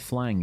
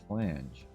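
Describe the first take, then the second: First: The word ends in a hard g sound. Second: The word ends in a soft j sound. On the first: The speaker calls it wrong. "it was not a flang" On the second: The speaker calls it right. "it was in fact, in fact a flange"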